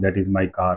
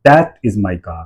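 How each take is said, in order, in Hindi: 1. यह सपाट बोला जाता है, किसी शब्द पर बल नहीं होता। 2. शब्द "that" पर तेज़ बल होता है। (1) "मोनोटोनस तरीके से बात कर रहा हूँ, सीधा बोल रहा हूँ" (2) "स्ट्रेस कहाँ आ रहा है, दैट के ऊपर आ रहा है"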